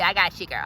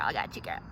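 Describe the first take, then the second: First: Said in the usual way. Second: Lower, hushed repeat; soft reassuring murmur. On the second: Acted. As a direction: drop it to a murmur. Repeated trailing off.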